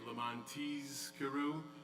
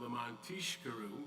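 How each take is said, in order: First: A clear z sound, carefully enunciated. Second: Said fast, the z slurs into sh. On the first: So that you will remember. The speaker calls it right. "it should be really specially enunciated" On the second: So that you will get drunk. The speaker calls it wrong. "if you're reading it too fastly, too fast, it comes out"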